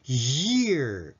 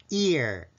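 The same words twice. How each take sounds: First: Year opening on a long, tight Y glide. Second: Ear starting on a pure long ee vowel; ear without Y. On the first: Teacher contrasting year with ear, strong Y onset. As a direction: squeeze the Y before the vowel in year, drawn out. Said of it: "そこにYがついているので". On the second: Teacher contrasting ear with year, plain vowel onset. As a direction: say ear drawn out, no glide at the front. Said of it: "と発音しますが". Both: Shown as a demonstration.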